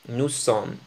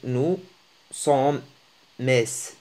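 First: It ends on the m with no vowel. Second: An extra vowel is sounded at the end. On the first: The speaker calls it right. "نحن نقول" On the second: The speaker calls it wrong. "لا نقول nous sommes mes، لا تنطق هكذا"

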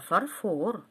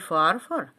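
First: The stress is on the second syllable. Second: The stress is on the first syllable. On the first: The speaker calls it right. "а фарфор" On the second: The speaker calls it wrong. "Разбил не фарфор"

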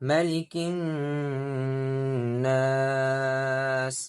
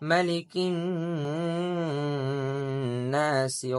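First: The last word ends on the s sound. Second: The last word ends with a short i vowel. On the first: The reading stops at the end of the verse. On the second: The reading continues without stopping.

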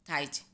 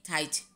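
No difference in how they are said.

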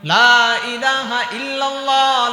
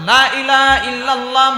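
First: The vowel of 'la' is held long. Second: The vowel of 'la' is kept short. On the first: There is no god but God. The speaker calls it right. "এই লা এর মধ্যে তিন আলিফ টান আছে।" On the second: There certainly is a god besides God. The speaker calls it wrong. "আর যদি আপনি এখানে টান ছাড়া পড়েন"

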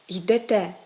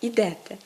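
First: The stress is on the last syllable. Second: The stress is on the first syllable. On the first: The speaker calls it right. "наголос падає на останній" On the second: The speaker calls it wrong. "а не"

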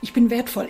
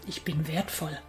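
First: It is said in a strained, tense way. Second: It is said in a calm, relaxed way. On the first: The speaker calls it wrong. "Nicht verkrampfen" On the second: The speaker calls it right. "sondern wirklich total gechillt sagen"

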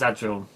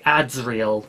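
First: The sounds of the name run together indistinctly. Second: Each sound of the name is clearly articulated. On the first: The speaker calls it wrong. "Otherwise it just comes out as Adsriel" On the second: The speaker calls it right. "I just find I have to enunciate it very clearly"

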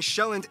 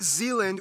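First: The name is said with Danish pronunciation. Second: The name is said with English pronunciation. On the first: The speaker calls it right. "I'm going to pronounce the location names in their proper Danish context" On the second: The speaker calls it wrong. "not Zealand"

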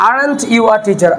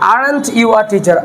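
First: The r sound in aren't is pronounced. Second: The r sound in aren't is pronounced.

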